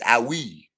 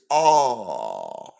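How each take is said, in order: First: The word is said as two syllables, 'ow-ee'. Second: The word is said as one syllable, 'aw'. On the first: The speaker calls it wrong. "I was saying it wrong" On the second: The speaker calls it right. "but it's "Aw.""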